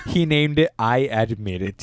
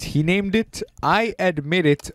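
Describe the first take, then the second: First: Said in the usual way. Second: "He named it I Admit It" higher and slower; emphatic repeat. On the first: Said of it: "repeated slower". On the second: Shown as a demonstration. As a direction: stretch out "I Admit It" in disbelief. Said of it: "repeated higher slower".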